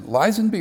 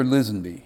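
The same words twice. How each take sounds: First: "Lisenby" with first syllable like "lies"; long-i pronunciation. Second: "Lisenby" with first syllable like "Liz"; short-i pronunciation. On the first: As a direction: say "Lisenby" as LIE-zen-bee. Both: Shown as a demonstration. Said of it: "is it Lisenby or Lisenby?".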